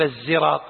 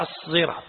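First: الزراط with a plain z, no emphasis; wrong z sound. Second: الصراط with a heavy emphatic s; emphatic sad. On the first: Sheikh shows the student's mistake: الزراط with a plain z. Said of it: "لا، هي الصراط هكذا". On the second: Sheikh corrects the recitation: الصراط with a heavy emphatic s. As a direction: give الصراط a full, thick emphatic s. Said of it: "هي الصراط هكذا". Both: Shown as a demonstration.

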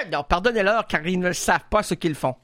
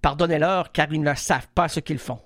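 First: Mock biblical line. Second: Low, solemn biblical delivery; grave mock-sacred voice; mock Jesus line. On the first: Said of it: "les répliques bibliques". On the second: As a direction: intone it like a preacher quoting scripture. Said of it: "Ok, alors vas-y".

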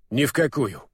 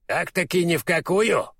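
First: "Ни в какую" as an even, falling statement; firm confirmation. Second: Higher-pitched question on "ни в какую"; probing question. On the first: Урфин confirms his refusal to the owl, matter-of-fact. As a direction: confirm it plainly, dropping on "какую". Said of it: "подтвердил Урфин". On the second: Owl questions Урфин about refusing, probingly. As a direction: press the question, lifting "какую" before it drops. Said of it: "закончил, видимо, начатую ранее фразу филин". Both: A narrator's reading.

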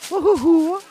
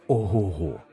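First: Put-on very high, loud girlish whoop; admiring exclamation. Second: Said in the usual way. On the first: A narrator's reading. Girl admiring a boy's huge bundle of firewood, delighted. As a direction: exclaim in delighted awe, voice shooting up. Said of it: "захоплено сказала".

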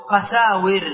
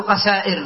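First: قساور with long "saa", then "wir"; kept waw. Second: قسائر with a glottal stop before "ir"; wrong hamza form. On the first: Teacher answering how to form the plural, قساور with waw. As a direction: glide into w in قساور, no hamza. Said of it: "فإذا جمعت وكيف أقول؟". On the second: Teacher warning against this plural, قسائر with hamza. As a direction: break قسائر with a hamza instead of w. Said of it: "ولا أقول قسائر هنا". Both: Shown as a demonstration.

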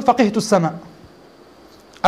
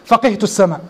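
First: فقهت السماء said very slowly, each word drawn out; slow drawn-out example. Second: Said in the usual way. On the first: Shown as a demonstration. (نطق بطيء ممدود لـ فقهت السماء) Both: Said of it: "العرب لا تقول".

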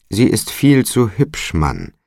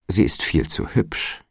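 First: Higher, louder insistence on viel; emphatic repeat. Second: Hushed, half-breathed aside; hushed sly warning to the porter. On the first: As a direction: press the warning home, pitched up. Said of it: "wiederholte der Alderman". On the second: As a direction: drop the voice as if sharing a secret. Alderman warns Toby about daughter. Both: A narrator's reading.

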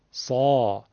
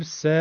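First: سا lower, full from the throat; thick, deep سا; heavy sad. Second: س as a soft thin "se"; a light "se" at the front of the mouth; light plain sin. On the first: (سا درشت و پرحجم) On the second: (سِ نازک و آرام) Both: Shown as a demonstration.

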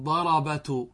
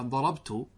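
First: ضربت said ḍarabatu, every letter vowelled, slow; ضربت drawn out slowly as ḍa-ra-ba-tu; ضربت pronounced ḍarabatu, a fatha on the ba; wrong ḍarabatu. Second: ضربت said ḍarabtu, with the ba silent; ضربت with the ba clipped short and unvowelled; ضربت pronounced ḍarabtu, sukūn on the ba; correct ḍarabtu. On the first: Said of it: "لا نقول ضربت". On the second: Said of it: "سكننا لو تلاحظون الباء". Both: Shown as a demonstration.

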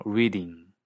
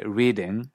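First: READING ending in tight '-eeng'; raised ending. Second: READING with lax '-ing', near 'readeng'; unraised ending. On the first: Teacher giving the accent's real form, READING as 'readeeng'. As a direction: raise the last vowel of READING toward 'ee'. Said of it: "suena más como I". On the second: Teacher showing what is not said, READING as 'readeng'. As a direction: keep the last vowel of READING relaxed. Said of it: "no se dice reading". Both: Shown as a demonstration.

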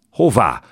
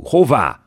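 First: Loud, high yelled question; a son's loud demanding shout. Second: Even higher, loud desperate shout; a son's repeated, higher yell at his father; louder yell. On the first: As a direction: roar it at his father. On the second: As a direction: scream it again, pushing harder. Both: A narrator's reading. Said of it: "üvöltött a fiú".

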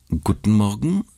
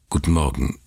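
First: Friendly. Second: Said in the usual way. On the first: Acted. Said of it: "sagte sie und blickte freundlich".

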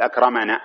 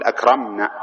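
First: "أكرمنا" with an a after the m, akrama-na; wrong extra vowel. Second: "أكرمنا" as akram-na, held on a closed m; correct still consonant. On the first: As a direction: add a short a between m and n in "أكرمنا". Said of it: "ما تقول". ("أكرمنا" بتحريك الميم بالفتح) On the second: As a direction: close firmly on the m of "أكرمنا" before na. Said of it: "لا، إنما تقول". ("أكرمنا" بميم ساكنة) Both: Shown as a demonstration.

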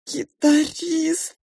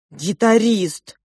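First: Put-on high, drawn-out crying child; tearful wail. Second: Put-on drawn out, louder child's exclamation; excited announcement. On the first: A narrator's reading. Child blaming guitarist to pink mouse, crying. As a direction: wail the word slowly through tears. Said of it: "снова громко заплакала я". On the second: Child telling mother who came to her room, excited. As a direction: announce the visitor emphatically, stretching the word.

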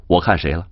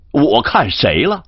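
First: Said in the usual way. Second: Indignant denial. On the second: Acted. Yanxi denies, repeats himself.

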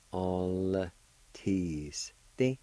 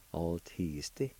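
First: "all teasty" in slow, separated syllables; sound by sound. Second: Said in the usual way. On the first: Shown as a demonstration. Teacher repeating for Cherokee learners, "all teasty" slowly broken up. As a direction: break "all teasty" apart piece by piece. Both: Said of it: "pronounce the L sound with the A like this".

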